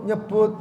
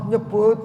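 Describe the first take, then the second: Both takes have the same delivery.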